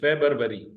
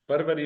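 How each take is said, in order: First: The word has a b sound before r. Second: The word has no b sound in it. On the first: The speaker calls it right. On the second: The speaker calls it wrong. "फरवरी नहीं है"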